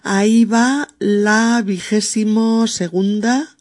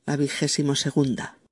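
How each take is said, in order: First: Higher, louder, slow "Ahí va la vigésimo segunda"; announcing. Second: Said in the usual way. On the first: Shown as a demonstration. Presenter revealing the next word, louder.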